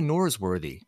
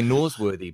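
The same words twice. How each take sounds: First: It is said with a clear American R. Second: It is said without the R sound.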